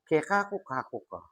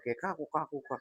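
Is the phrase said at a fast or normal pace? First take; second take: normal; fast. First: The phrase is said at a normal pace. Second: The phrase is said quickly.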